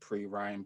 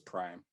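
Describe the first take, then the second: First: The name is said as two syllables. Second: The name is said as one syllable. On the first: The speaker calls it wrong. "some people like to pronounce it Pre-Rhyme" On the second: The speaker calls it right. "but it's Prime"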